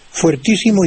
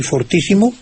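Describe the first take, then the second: First: "fuertísimo" starting with fuer; diphthong UE. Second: "fortísimo" starting with for; plain O. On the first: Maestro compares the two forms, "fuertísimo" with ue. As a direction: keep the ue glide in "fuertísimo". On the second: Maestro compares the two forms, "fortísimo" with o. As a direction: use a simple o in "fortísimo". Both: Shown as a demonstration. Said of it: "se convierte en O".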